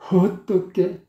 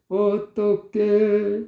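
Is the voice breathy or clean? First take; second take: breathy; clean. First: It starts with a breathy, airy h-like sound. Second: It starts cleanly, without any breathy sound. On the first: The speaker calls it wrong. "허 발음이 들어간 것은" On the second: The speaker calls it right. "이렇게 깔끔하게 나와줘야 돼요"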